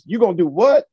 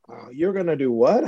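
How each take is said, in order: First: It sounds disbelieving and challenging. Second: It sounds open and curious.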